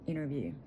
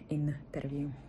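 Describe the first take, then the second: First: The t sound is swallowed. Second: The t sound is clearly pronounced. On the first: "Англійською ми наче й ковтаємо" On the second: "як ми би сказали в українською"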